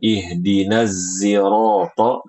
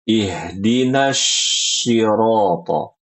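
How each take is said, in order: First: Sirata begins with a z sound. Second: Sirata begins with a sh sound. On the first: "dengan huruf zai" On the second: "Huruf sodnya diubah menjadi huruf shin"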